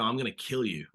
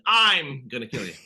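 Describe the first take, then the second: First: Emphasis falling on "kill"; stress on kill. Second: "I'm" punched loud and drawn out; stress on I'm. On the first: Actor shows the interviewer English emphasis, stress on "kill". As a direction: put the weight on "kill", not "I'm". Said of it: "you emphasize the word kill". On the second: Actor shows wrong emphasis in a foreign language, stress on "I'm". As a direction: hit "I'm" hard, let "kill you" drop away. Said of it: "I might have been emphasizing". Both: Shown as a demonstration.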